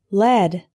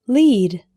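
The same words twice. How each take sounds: First: Short "eh" vowel in Lead; metal pronunciation. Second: Long "ee" vowel in Lead; verb pronunciation. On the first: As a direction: LEAD rhyming with bed. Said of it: "or led". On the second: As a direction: LEAD rhyming with need. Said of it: "can be pronounced lead". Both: Shown as a demonstration.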